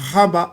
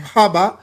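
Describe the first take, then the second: First: The word begins with an H sound. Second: The word begins with an H sound.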